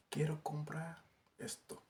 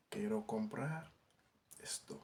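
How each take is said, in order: First: Said in the usual way. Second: A slow repeat for learners to copy; slow careful repeat. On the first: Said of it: "teacher models the Spanish phrase". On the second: Shown as a demonstration. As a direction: say Quiero comprar esto again slowly, each word clear. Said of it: "teacher repeats the phrase slower". (waxaat ko ndànk ndànk)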